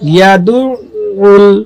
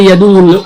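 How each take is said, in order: First: The 'ayn sound is doubled and held. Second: The 'ayn sound is short and single. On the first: The speaker calls it right. "আইনটাকে দুবার উচ্চারণ করতে হবে" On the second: The speaker calls it wrong. "আমরা অনেকে বলি ইয়াদুল ইয়াতিম না"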